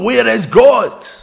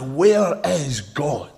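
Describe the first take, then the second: First: It is said in an even sterner voice. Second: It is said in a stern, firm voice.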